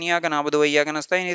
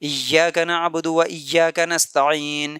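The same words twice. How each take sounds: First: It is recited quickly, words running together. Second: It is recited slowly, with pauses between phrases. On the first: The speaker calls it wrong. "जल्दी जल्दी नहीं पढ़ना" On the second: The speaker calls it right. "सुकून से, रुक रुक के, ठहर ठहर के पढ़ना है"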